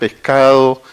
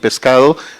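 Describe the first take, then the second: First: The s in 'pescado' is breathed like an h. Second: The s in 'pescado' is a clear hissed s.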